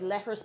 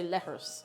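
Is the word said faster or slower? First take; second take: faster; slower. First: The word is said a little faster. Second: The word is said a little slower. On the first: Other people say it this way. "Some people would say it a little faster than that, like" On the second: This is the way the speaker says it. "but I- I'd say"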